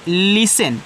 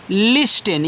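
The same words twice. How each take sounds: First: लिसन said slowly with no t sound; listen with silent t. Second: लिस्टन with the t pronounced; common mispronunciation of listen. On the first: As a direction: say लिसन as LI-sun, t dropped. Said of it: "इसका उच्चारण आपको नहीं कहना है इस टी का". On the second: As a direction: say लिस्टन as LIS-tun. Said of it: "काफ़ी लोग इसको पढ़ते हैं लिस्टन". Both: Shown as a demonstration.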